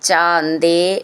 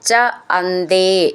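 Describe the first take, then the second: First: The two words are merged into one word. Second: The two words are said as separate words.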